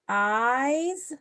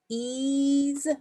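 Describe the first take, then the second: First: The vowel is an 'eye' sound. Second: The vowel is a long 'ee' sound. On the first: The speaker calls it right. "a Y can be pronounced I" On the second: The speaker calls it wrong. "E Y both make the E sound"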